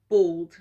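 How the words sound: The word is said in a British accent. "English, English is like bald"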